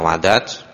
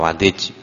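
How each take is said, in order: First: The vowel after the d is 'a'. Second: The vowel after the d is 'i'. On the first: "bi fathid dali" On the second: "wa kasriha"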